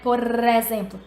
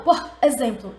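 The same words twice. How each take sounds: First: The two words run together as one. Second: The two words are said separately. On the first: The speaker calls it right. "eu emendo" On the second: The speaker calls it wrong. "eu não falo por exemplo"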